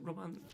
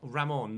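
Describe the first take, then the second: First: The name starts with a 'Ro' sound. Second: The name starts with a 'Ra' sound. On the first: The speaker calls it wrong. "Is it Roman?" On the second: The speaker calls it right. "Ramon, not Roman"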